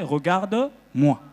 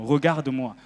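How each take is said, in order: First: Drawn out «Regarde-moi», slowly; slow translation. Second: Said in the usual way. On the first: Shown as a demonstration. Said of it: "ça veut dire en français". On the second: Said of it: "ça veut dire littéralement".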